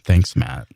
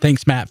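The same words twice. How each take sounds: First: It is said with a derisive, mocking tone. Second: It is said plainly, without derision. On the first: The thanks is meant sarcastically. The speaker calls it right. "that's better" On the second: The thanks is meant genuinely. The speaker calls it wrong. "not um, having a tone of derision in your voice when you said thanks, Matt"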